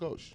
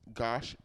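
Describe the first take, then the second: First: The vowel sounds like the one in 'ghost'. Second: The vowel sounds like the one in 'gosh'. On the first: The speaker calls it right. "like ghost" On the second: The speaker calls it wrong. "I've heard people say it tw- uh, both ways"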